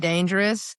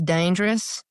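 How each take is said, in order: First: The word is said with all three syllables. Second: The word is said with syllables dropped out. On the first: "she doesn't say dangerous" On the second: "She just took out half of the syllables in that word"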